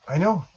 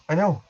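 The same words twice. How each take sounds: The two takes are said the same way.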